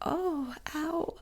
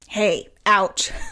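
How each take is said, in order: First: It sounds soft and hurt. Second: It sounds sharp and irritated.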